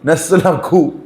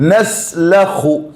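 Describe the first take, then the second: First: The kh is an aspirated k sound. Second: The kh is a rough sound from the throat. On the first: The speaker calls it wrong. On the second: The speaker calls it right.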